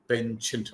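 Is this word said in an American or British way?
American. The word is said with an American pronunciation. "American pronunciation"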